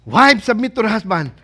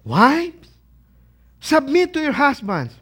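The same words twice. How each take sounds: First: Loud, hammed-up command; husband's relishing reading. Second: Mock displeased, raised voice; wife's displeased reading. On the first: Husband finding the verse on wives submitting, relishing it. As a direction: proclaim it as the husband's favourite verse. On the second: Wife reaching the verse on submitting, displeased. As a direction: read it out as an unwelcome order.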